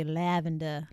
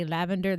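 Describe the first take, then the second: First: "lavender" in an Australian accent, ending in an open "-duh"; Australian-style "lavender". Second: Said in the usual way. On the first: Shown as a demonstration. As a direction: say "lavender" the Australian way, dropping the final r. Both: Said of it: "if you wanna do Australian".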